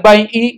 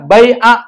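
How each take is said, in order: First: The word ends in an i vowel. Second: The word ends in an a vowel. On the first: The speaker calls it wrong. "nggak boleh bai'i" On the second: The speaker calls it right. "dibacanya bai'a"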